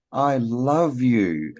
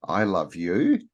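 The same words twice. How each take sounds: First: "I love you" drawn out slowly, "love" lifted and falling; slow loving inflection. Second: "I love you" quick and level, ending on a light rise at "you"; offhand inflection. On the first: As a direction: linger on "love", slow and higher. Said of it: "You can say". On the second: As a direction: toss it off, rising on "you". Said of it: "and you can say". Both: Shown as a demonstration.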